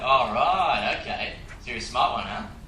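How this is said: It is said in a teasing, flirtatious tone. The speaker shows sexual interest. "To add in sexual presence into that"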